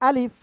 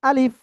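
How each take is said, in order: Both takes have the same delivery.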